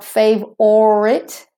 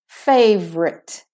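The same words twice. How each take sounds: First: The word is said with three syllables. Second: The word is said with two syllables. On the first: The speaker calls it wrong. "The OR is missing. It's not favorite" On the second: The speaker calls it right. "it's favorite"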